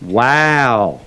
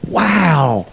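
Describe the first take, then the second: First: The wow sounds sarcastic and mocking. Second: The wow sounds genuinely impressed and sincere. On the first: The listener thinks the other person is crazy. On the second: The listener is truly impressed.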